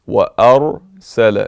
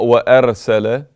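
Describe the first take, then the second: First: The r sound is heavy and full. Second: The r sound is light and thin. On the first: The speaker calls it right. "it must be مفخم" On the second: The speaker calls it wrong. "Not وأرسل, because usually when people talk they say وأرسل"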